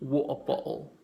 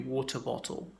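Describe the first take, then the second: First: The T sounds are replaced by glottal stops. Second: The T sounds are pronounced clearly and distinctly. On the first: "with a glottal stop it would be" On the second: "I hope I'm not overemphasizing the T there"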